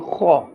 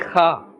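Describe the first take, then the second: First: The kha sound is full and thick. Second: The kha sound is thin and light. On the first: The speaker calls it right. "A fuller, a thicker sound" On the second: The speaker calls it wrong. "We must not say kha or khe. This is incorrect"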